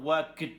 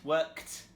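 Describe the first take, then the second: First: The word ends with a D sound. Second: The word ends with a T sound. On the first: The speaker calls it wrong. "it's not worked with a D" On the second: The speaker calls it right. "So you can hear it's k t"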